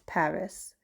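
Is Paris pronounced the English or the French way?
English. It is pronounced the English way, ending in s. This is not what people living there call it. The speaker calls it wrong. "we don't call it Paris"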